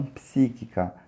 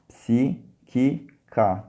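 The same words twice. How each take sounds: First: Said in the usual way. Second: "psíquica" very slowly, in three separate syllables. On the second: Shown as a demonstration. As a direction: break "psíquica" apart with long pauses between syllables. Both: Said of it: "tem que saber separar sílabas".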